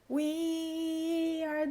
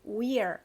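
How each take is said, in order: First: Two separate words with a clear vowel between. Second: One joined syllable ending in an R sound. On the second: "aqui a gente tem ele junto, só acrescenta o som do R"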